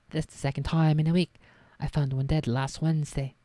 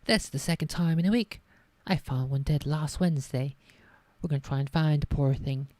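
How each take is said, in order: First: A hint of Hagrid's rural accent, louder; lightly voiced Hagrid. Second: Hagrid attempt slipping into posh English; botched Hagrid accent. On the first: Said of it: "That's not the Hagrid accent". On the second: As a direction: tries rural Hagrid but lands on posh. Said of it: "I just fucked up the accent so hard".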